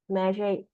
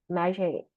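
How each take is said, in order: Both takes have the same delivery.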